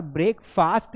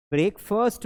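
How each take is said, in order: First: ब्रेकफास्ट with a long open "aa" in the second syllable; wrong breakfast pronunciation. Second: ब्रेकफास्ट with a short, reduced vowel in the second syllable; correct breakfast pronunciation. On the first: Teacher showing learners what to avoid, ब्रेकफास्ट with a full "faast". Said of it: "नहीं बोलना है". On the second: Teacher modelling for learners, ब्रेकफास्ट ending in a short "fust". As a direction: say ब्रेकफास्ट as "brek-fust", not "faast". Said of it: "बोलना है". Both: Shown as a demonstration.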